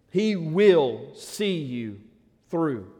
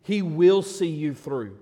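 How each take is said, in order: First: Slow, tender repeat. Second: Said in the usual way. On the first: Shown as a demonstration. Pastor repeating a promise to the hurting congregation, slow and gentle. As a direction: let each word land, slower, like a promise.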